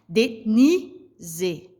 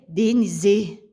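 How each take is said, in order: First: The stress is on the second syllable. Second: The stress is on the third syllable. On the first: The speaker calls it right. "esse ni, ele se pronuncia mais forte" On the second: The speaker calls it wrong. "Se eu fosse jogar a sílaba mais forte no C"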